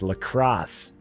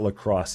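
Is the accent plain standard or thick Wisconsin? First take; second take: Wisconsin; standard. First: It is said in a thick Wisconsin accent. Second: It is said in a plain standard accent. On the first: The speaker calls it right. "very heavy Wisconsin accent" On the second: The speaker calls it wrong. "it's not"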